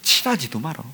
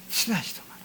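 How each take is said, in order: First: Said in the usual way. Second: 친하지도 말어 whispered, breathless and soft. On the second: Shown as a demonstration. Repeated phrase, whispered take. (친하지도 말어를 속삭이듯)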